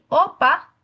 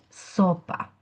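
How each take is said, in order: First: The word starts without the s sound. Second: The word starts with the s sound. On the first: The speaker calls it wrong. "con la omisión de la S" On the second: The speaker calls it right. "en lugar de"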